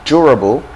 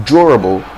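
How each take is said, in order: The two takes are said the same way.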